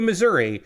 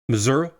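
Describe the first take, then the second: First: The word is said in the usual pronunciation. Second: The word is said in a variant pronunciation.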